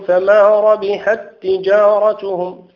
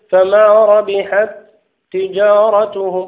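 First: The two t sounds merge into one doubled t. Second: The two t sounds are pronounced separately. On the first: The speaker calls it right. "نقول فما ربحت تجارتهم ... ندغم هذا فيها" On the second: The speaker calls it wrong. "لا نقول فما ربحت تجارتهم"

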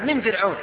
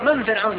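First: The first word is said with an i vowel. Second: The first word is said with an a vowel. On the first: Those people were saved from Pharaoh. "والقراءة الصحيحة من فرعون" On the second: Pharaoh is scorned as a nobody. "وبعضهم يقرأ من فرعون، يقول: من هذا الحشرة فرعون"

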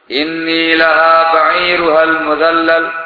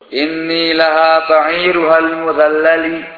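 First: The last word ends on a consonant. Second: The last word ends on an added vowel.

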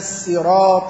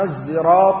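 First: It begins with a plain, light s sound. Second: It begins with a sound close to z. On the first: "بالسين" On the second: "بالإشمام بين السين والصاد بما يشبه الذال التي ينطقها العامة زايا"

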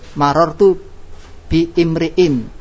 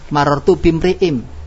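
First: The last word starts with a glottal stop. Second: The words run together without a glottal stop. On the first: The speaker calls it wrong. "Kalau bacanya kita putus" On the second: The speaker calls it right. "Kita baca sambung"

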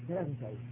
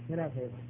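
No difference in how they are said.

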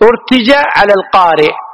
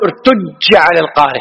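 First: The j sound is short and single. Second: The j sound is long and doubled. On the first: The speaker calls it right. "وهي مخففة" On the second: The speaker calls it wrong. "خطأ"

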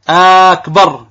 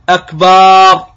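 First: The first vowel is drawn out long. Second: The second vowel is drawn out long. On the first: "إذا مد همزة أكبر، أكبر هكذا لا يجوز" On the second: "بعضهم يمد الباء فتجده يقول الله أكبر"

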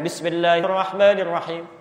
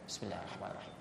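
First: The phrase is recited loudly, out loud. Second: The phrase is recited quietly, under the breath. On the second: "itu bismillahnya disirkan"

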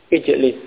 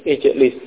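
No difference in how they are said.

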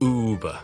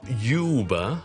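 First: It begins with an 'oo' sound. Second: It begins with a 'you' sound. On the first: The speaker calls it right. "it's Uber" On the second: The speaker calls it wrong. "不是YouTube 的U"

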